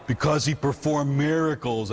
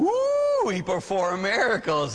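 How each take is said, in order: First: Said in the usual way. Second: High swooping ooh, then mock awe; sarcastically awed echo of a kid's answer; mock amazement. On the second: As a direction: pretend to be hugely impressed.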